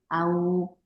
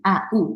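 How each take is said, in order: First: The two vowels glide smoothly into one sound. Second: The two vowels are split into separate sounds. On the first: The speaker calls it right. "이렇게 편안하게 발음이 돼서" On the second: The speaker calls it wrong. "이렇게 발음하면 안 돼요"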